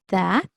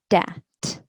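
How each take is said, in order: First: It begins with a soft th sound. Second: It begins with a hard d sound. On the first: "the T H sound or the th sound" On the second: "the D sound"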